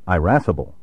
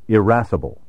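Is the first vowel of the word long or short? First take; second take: long; short. First: The first vowel is a long 'eye' sound. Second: The first vowel is a short 'i' sound.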